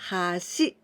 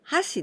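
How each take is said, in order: First: The pitch rises on this word. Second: The pitch falls on this word. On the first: It means bridge. "So 橋 go up" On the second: It means chopsticks. "this is chopsticks"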